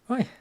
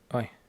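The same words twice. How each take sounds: First: It sounds pleased and impressed. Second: It sounds displeased and dismayed. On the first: Something good or impressive happened. "it's so impressively large" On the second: Something unpleasant happened. "might not be so pleasant"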